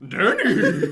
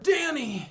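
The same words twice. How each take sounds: First: It is said like a horse would say it. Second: It is said in a normal voice.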